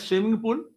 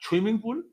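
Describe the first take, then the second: First: The first word begins with a plain s sound. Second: The first word begins with an aspirated chh sound. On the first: This is how people in the speaker's own region say it. "हम बोलेंगे" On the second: This is how people toward Bengal say it. "Bengal के किनारे जाइएगा आप तो बोलेगा"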